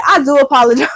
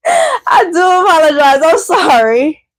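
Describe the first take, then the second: First: Said in the usual way. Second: Laughing through a sorry to a viewer; laughing apology. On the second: Real, not acted. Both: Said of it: "if I said that in a disrespectful or rude way".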